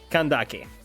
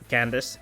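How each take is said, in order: First: The name ends with a hard K sound. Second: The name ends with a soft S sound. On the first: This is how most other languages say it. "in most other languages that sound different from from English, it's it's not. It's clearly Kandak" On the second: This is how English says it. "But I guess in, in English it is Candace"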